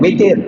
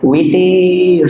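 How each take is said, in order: First: The vowel in the word is kept short. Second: The vowel in the word is drawn out long. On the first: This is the Arabic way of saying it. The speaker calls it right. "Kalau bahasa Arabnya pendek ya" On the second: This is the local Indonesian way of saying it. The speaker calls it wrong. "Mungkin bahasa kita itu maksudnya"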